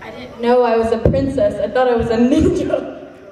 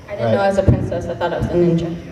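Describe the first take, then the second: First: It is said more slowly. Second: It is said at normal speed.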